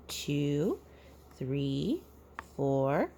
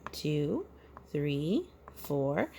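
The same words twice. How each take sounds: The two takes are said the same way.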